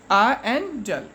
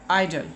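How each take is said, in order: First: "A and dull" as two parts, A said like "eye"; split into syllables. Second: Said in the usual way. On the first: Shown as a demonstration. Teacher showing children two syllables, "A and dull" said in parts. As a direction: sound "A and dull" one syllable at a time. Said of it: "two syllables". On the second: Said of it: "Idle has two syllables".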